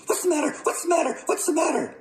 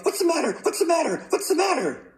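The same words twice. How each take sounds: First: Very high, rapid-fire squawk; startled outcry. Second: Very high, rapid-fire panicked yell; startled yell. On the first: Mother whacked awake with a hat, startled outcry. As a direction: cry it out high, jolted awake. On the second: Father whacked awake with a pillow, startled yelling. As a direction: squawk it high, jolted out of sleep. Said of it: "jumped out of bed and yelled". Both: A narrator's reading.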